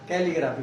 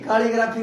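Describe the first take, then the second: First: The first vowel is short, as in 'cat'. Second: The first vowel is long, as in 'car'. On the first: The speaker calls it right. "कैलीग्राफी बोलते हैं" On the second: The speaker calls it wrong. "काली नहीं, कालीग्राफी नहीं"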